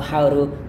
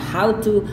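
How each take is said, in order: First: The t in 'to' is a soft tap. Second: The t in 'to' is a clear t. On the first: "orang Amerika biasanya melafalkannya dengan how to" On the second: "cara bacanya adalah how dan ini adalah to"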